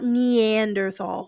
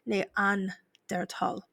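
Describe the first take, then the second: First: The word is said with English pronunciation. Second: The word is said with German pronunciation. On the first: The speaker calls it wrong. "It's not Neanderthal" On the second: The speaker calls it right. "it's a German word"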